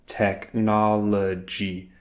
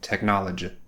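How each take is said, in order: First: It is said slowly, syllable by syllable. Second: It is said quickly, syllables run together. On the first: The speaker calls it right. "when she slowed it down and she just took it step by step" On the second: The speaker calls it wrong. "as soon as she tried to speed up and say it all together quickly"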